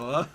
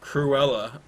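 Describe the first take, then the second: First: No r sound follows the opening k sound. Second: An r sound follows the opening k sound. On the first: The speaker calls it wrong. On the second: The speaker calls it right. "It's Cruella"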